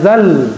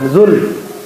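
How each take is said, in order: First: The vowel is a. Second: The vowel is u. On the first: The speaker calls it right. "ya zal" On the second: The speaker calls it wrong. "bukan zul"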